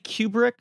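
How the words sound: The name is said the British way. This is how people in England say the name. The speaker calls it wrong. "Brits say Kubrick"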